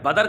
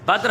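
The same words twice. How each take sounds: First: "बदर" with an added vowel, badar; the wrong "बदर"; teacher quotes the wrong "बदर"; wrong pronunciation. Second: "बद्र" as one syllable, badr; clipped cluster in "बद्र"; teacher models "बद्र"; correct pronunciation. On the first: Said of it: "ये बिल्कुल गलत है". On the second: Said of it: "होता है". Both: Shown as a demonstration.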